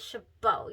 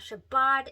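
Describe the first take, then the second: First: No final D sound is pronounced. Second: A final D sound is pronounced. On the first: The speaker calls it right. "You do not pronounce the D" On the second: The speaker calls it wrong. "It is not"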